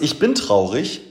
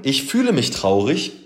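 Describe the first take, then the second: First: Bin hervorgehoben, mit steigender Melodie; Betonung auf bin. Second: Fühle hervorgehoben, mit steigender Melodie; fühle deutlich betonen; Betonung auf fühle. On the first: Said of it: "ob du sagst, ich bin traurig oder ich fühle mich traurig". (Betonung auf bin, steigend) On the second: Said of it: "Zu sagen". (Betonung auf fühle, steigend) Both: Shown as a demonstration.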